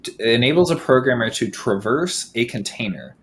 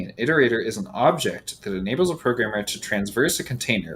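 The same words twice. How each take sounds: First: "traverse" said tra-VERSE, no n; corrected traverse. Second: Transverse said with an n: tranz-verse; misread transverse. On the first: Correcting the misread definition, "traverse" said as tra-VERSE. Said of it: "which is a different thing". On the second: Reading a definition aloud to the stream, saying "transverse" with an n. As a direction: read "transverse" as TRANZ-verse, slipping an extra n in. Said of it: "I might have said transverse". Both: Real, not acted.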